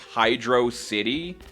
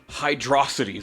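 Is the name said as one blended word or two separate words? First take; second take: two words; one word. First: It is said as two separate words. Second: It is said as one blended word. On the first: The speaker calls it right. "Sega confirmed that it's Hydro City" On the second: The speaker calls it wrong. "If you're stupid, that's how you pronounce it"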